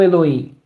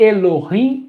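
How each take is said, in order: First: The h is silent, not pronounced. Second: The h is a harsh throat sound. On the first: The speaker calls it wrong. "e não Elohim" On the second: The speaker calls it right. "que é Elohim ... Por causa do H"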